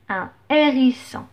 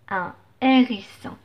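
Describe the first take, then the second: No difference in how they are said.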